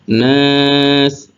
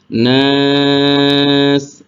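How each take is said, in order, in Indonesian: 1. Vokal panjang ditahan selama satu ketukan. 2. Vokal panjang ditahan selama dua ketukan. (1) "dua harokat ... satu" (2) "empat harokat ... dua"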